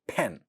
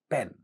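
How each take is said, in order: First: The first consonant has a puff of air. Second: The first consonant has no puff of air. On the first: "the initial sounds get aspirated" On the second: "I'll try to say these words without aspiration"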